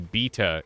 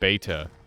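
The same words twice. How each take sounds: First: It is said with a British pronunciation. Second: It is said with a non-British pronunciation. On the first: "the Brits, they apparently say beta" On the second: "instead of beta"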